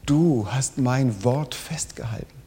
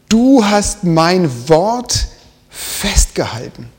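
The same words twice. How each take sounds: First: Said in the usual way. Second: "Du hast mein Wort festgehalten" read very slowly and louder, "Du" stretched and rising; "Du" stressed with a rising tune, slow and loud; slow emphatic quote. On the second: Shown as a demonstration. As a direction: lean hard on "Du", dragging each word.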